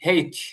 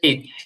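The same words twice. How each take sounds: First: The letter name begins with an h sound. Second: The letter name begins with a vowel sound. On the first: "এর আরেকটা উচ্চারণ আছে এইচ। এইচ হ দিয়ে" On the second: "এইচ আমরা সবাই জানি"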